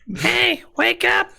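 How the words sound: It is said in a put-on character voice.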